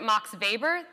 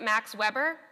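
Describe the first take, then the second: First: The name is said the German way. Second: The name is said the English way. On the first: The speaker is a true expert in the field. The speaker calls it right. "then you are a true bureaucracy scholar" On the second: The speaker is not an insider in the field. The speaker calls it wrong. "you are not in the know"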